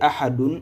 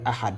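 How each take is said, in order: First: The word ends with a vowel and n. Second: The word stops on a bare final d. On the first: The reading continues without stopping. The speaker calls it wrong. "au lieu de dire Ahadun" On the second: The reader stops at the end of the verse. The speaker calls it right. "on s'arrête avec l'accent soukoun"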